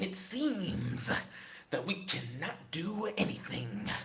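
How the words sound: It is said in a put-on character voice.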